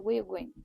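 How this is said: Creole accent, fast, with words dropped. "In Creole, we'd say ... it's also fast"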